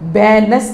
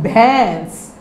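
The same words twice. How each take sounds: First: A full n consonant sound is pronounced. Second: The vowel is only nasalized, without n. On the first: The speaker calls it wrong. "भैंस नहीं है" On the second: The speaker calls it right. "इसमें है नून गुन्ना, नून की आवाज़ तो नहीं आ रही ना"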